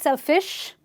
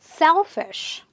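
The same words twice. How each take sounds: First: The stress is on the second syllable. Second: The stress is on the first syllable. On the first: The speaker calls it wrong. "not selfish" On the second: The speaker calls it right. "you stress on the syllable before this suffix"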